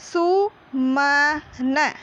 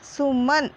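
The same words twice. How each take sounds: First: "सु, म, न" drawn out with gaps; syllable by syllable. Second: Said in the usual way. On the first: Shown as a demonstration. Teacher demonstrates reading to children, slow and separated. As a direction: sound out सु, then म, then न, slowly. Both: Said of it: "तो इसको हम ऐसे ही पढ़ेंगे".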